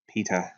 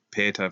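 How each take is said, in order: First: "peta" said PEE-ta, softer; alternative pronunciation. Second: "peta" said PAY-ta; first pronunciation. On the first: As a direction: say "peta" with a long EE in the first syllable. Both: Real, not acted. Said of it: "or peta, that is".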